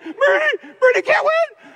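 It is said in a pleading, desperate tone. They beg for Bernie to lose. "you got to change the tone. They're actually saying"

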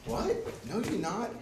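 It is said calmly, like casual discussion.

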